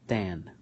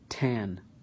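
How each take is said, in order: First: The t is released without a puff of air. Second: The t is released with a puff of air. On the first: "then I'm going to do it with the ta" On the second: "I'm going to do it with the T"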